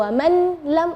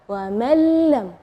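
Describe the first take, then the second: First: The n is pronounced clearly before the l. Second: The n merges into a doubled l sound. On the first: The speaker calls it wrong. "itu salah, atau wa man lam itu jadi jelas" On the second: The speaker calls it right. "di situ kita bacanya wa mallam"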